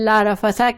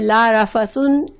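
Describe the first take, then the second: First: The last word ends with an 'a' sound. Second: The last word ends with an 'un' sound. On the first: "ला रफसा कहने में" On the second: "ला रफसुन कहने में"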